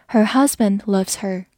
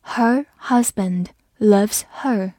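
First: Said in the usual way. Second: Slow reading with pauses between words; slow read-along. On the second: Shown as a demonstration. Teacher modelling the second sentence, slow and separated. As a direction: say each word separately and slowly. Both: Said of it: "好，来慢读一遍".

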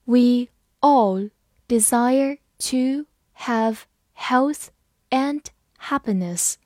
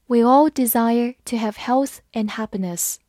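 First: Slow, word by word; slow reading. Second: Said in the usual way. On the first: Shown as a demonstration. Teacher reading slowly so students follow. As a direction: read it slowly for the class. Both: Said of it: "好，慢慢来读。".

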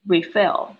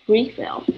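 First: "Refill" stressed on "fill", as a verb; second-syllable stress. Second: "refill" with "RE" high and strong, as a noun; first-syllable stress. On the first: Teacher contrasting verb and noun, verb stress on the end. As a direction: push the weight onto "fill". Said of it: "一个是重音在后面". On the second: Teacher contrasting noun and verb, noun stress up front. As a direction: hit the "re" of "refill". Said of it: "一个是重音在前面". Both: Shown as a demonstration.

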